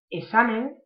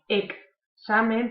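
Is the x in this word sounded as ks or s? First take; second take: s; ks. First: The x is sounded as a plain s. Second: The x is sounded as k plus s. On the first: The speaker calls it wrong. "de la X pasamos a la S y no, no pronunciamos bien" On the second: The speaker calls it right. "primero la K, luego la S"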